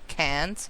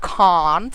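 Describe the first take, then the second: First: It is said in an American accent. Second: It is said in a British accent. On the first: "instead of can't" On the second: "pronounce it the British way, like can't"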